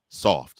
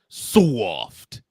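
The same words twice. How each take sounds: First: The vowel in soft is short and plain. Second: The vowel in soft is drawn out like 'sawft'. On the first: The speaker calls it wrong. "Say it right" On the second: The speaker calls it right. "S A W F T"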